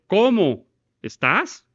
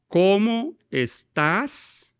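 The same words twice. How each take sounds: First: "¿Cómo estás?" exclaimed, slow, louder and higher; exclamation. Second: "¿Cómo estás?" drawn out very slowly, pitch higher, rising; slow, lifted "¿Cómo estás?" as a real question; questioning tune. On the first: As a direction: burst out "¿Cómo estás?" as a glad greeting. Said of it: "hacer una exclamación". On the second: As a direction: ask "¿Cómo estás?" slowly with a clear rise. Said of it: "Es una pregunta". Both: Shown as a demonstration.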